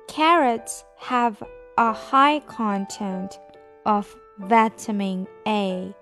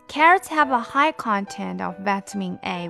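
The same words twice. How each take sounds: First: The sentence is read at slow speed. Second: The sentence is read at normal speed.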